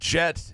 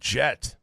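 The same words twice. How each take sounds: First: The final T is said normally. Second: The final T is hit hard and drawn out. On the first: The name is spelled with one T. "naming your kid Jet" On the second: The name is spelled with two T's. "The Jet with two T's again"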